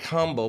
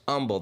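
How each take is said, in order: First: The word starts with an audible H sound. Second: The word starts without any H sound. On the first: "It's spelled like humble" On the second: "but it's pronounced humble. They never pronounced the H"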